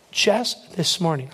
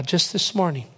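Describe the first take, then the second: First: "just" drawn out, then a pause; stress on just. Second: Said in the usual way. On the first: Retold or imitated. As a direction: lean slowly on "just". Repeats it slowly for weight.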